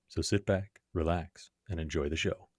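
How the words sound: It is said in a sultry voice.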